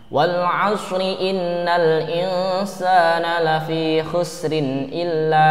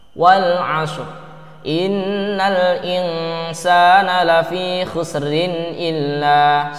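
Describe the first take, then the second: First: The first word ends in a vowel, flowing onward. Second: The first word ends clipped, followed by a stop. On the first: The reading continues into the next verse. "Kalau kita baca wal asri, berarti harus dilanjutkan" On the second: The reading pauses at the end of the first verse. "Kalau kita wakof atau berhenti di ayat pertama, cukup wal asr"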